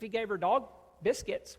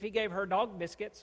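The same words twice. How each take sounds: First: 'Her dog' is grouped together, then 'biscuits'. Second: 'Her' stands apart, then 'dog biscuits' together. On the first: The treats were given to the woman's dog. "wow, that's nice. Loving on the dog, treating it" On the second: The woman herself was given dog treats. "that's pretty demeaning and cruel"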